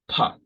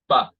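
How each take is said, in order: First: The consonant is released with a strong puff of air. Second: The consonant is released without a puff of air. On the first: The speaker calls it wrong. "which produces a lot of air" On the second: The speaker calls it right. "You won't feel any air"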